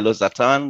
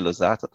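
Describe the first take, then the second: First: It is said with a German pronunciation. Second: It is said with a British pronunciation. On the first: "Germans would say Losartan" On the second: "the British say Losartan"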